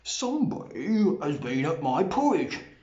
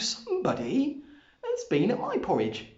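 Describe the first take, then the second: First: It is said in a deep, rough, gruff voice. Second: It is said in a medium, ordinary voice.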